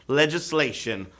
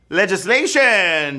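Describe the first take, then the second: First: Said in the usual way. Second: Legislation said slowly, each syllable stretched and lifted; emphatic reveal. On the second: Shown as a demonstration. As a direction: land the answer Legislation with slow weight. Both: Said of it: "players got that right".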